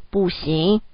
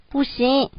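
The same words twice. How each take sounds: First: Lightly voiced father's no, pitched down; a hint of dad's lower, firmer no; father's firmer refusal. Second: Mother's no, pitched higher; lightly voiced higher maternal refusal. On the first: Father backs up mother's refusal, lightly voiced lower no. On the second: Mother refuses to let the boy take his blanket, higher-pitched no. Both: A narrator's reading. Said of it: "爸爸说得更大声".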